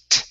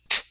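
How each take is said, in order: Both takes have the same delivery.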